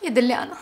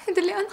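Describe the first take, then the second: First: Despairing moan. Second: يدلي أنا broken by a nervous laugh. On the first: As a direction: groan يدلي أنا in defeat. يائسة بعد انكشاف كذبها. (تأوّه يائس منخفض) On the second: تكرّرها ضاحكة من توترها. (ضحكة متوترة) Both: Acted.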